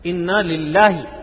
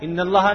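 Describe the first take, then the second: First: The phrase is pronounced as inna lillah. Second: The phrase is pronounced as in Allah. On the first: The speaker calls it right. "یہ سیکھے انا للہ" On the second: The speaker calls it wrong. "ان اللہ نہیں"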